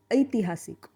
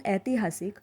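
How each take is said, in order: First: ऐतिहासिक with the first vowel stressed and stretched into a long ai; Marathi drawn-out ai. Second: Said in the usual way. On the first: Shown as a demonstration. Teacher to learners, ऐतिहासिक with a long stressed ai. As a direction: stretch the ऐ of ऐतिहासिक longer and harder. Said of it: "थोड़ा और लंबा खींचेंगे तो बनता है ऐ". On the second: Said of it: "Hindi में इसका प्रोनाउंसिएशन".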